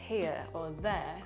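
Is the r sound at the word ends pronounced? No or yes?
no. The final r sounds are dropped. "People say here or there"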